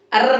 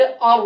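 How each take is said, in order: First: "अर्र" with a thin, trilled R. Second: "अर" thick and rounded, toward "or"; heavy Ra. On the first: Teacher showing what not to read, thin Ra. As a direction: roll "अर्र" lightly, vowel unrounded. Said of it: "नहीं पढ़ेंगे बल्कि". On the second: Teacher modelling the correct reading, heavy Ra. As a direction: say "अर" full-mouthed, R heavy. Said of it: "मोटा करके". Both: Shown as a demonstration.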